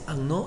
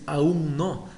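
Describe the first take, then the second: First: The words are merged into one reduced word. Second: Both words are said fully and clearly. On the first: The speaker calls it wrong. "se dice anno" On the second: The speaker calls it right. "en lugar de decir aún no"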